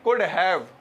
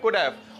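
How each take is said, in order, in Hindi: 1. have में h की ध्वनि पूरी तरह उच्चारित होती है। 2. h छोड़ दिया जाता है, जिससे संकुचित रूप could've बनता है। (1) "हम बोलते हैं could have" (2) "बोलते हैं could have"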